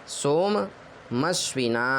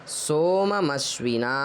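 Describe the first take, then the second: Both takes have the same delivery.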